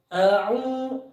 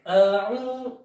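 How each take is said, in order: The two takes are said the same way.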